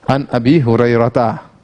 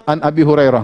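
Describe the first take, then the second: First: "Hurairah ta" with the final ta sounded, low; voiced ta ending. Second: "Hurairah" stopping on -rah, no ta; safe pausal ending. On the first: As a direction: sound out "ta" after Hurairah, no silent h. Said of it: "Nama yang terakhirnya ta marbutah". ("Hurairah ta" dengan bunyi ta di akhir) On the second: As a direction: end "Hurairah" without a case vowel. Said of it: "Kalau mau selamat". ("Hurairah" berhenti di -rah, tanpa harakat) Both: Shown as a demonstration.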